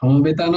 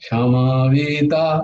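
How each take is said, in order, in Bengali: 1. মাঝের ব্যঞ্জনটি কড়া 'b' ধ্বনি। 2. মাঝের ব্যঞ্জনটি নরম 'v' ধ্বনি।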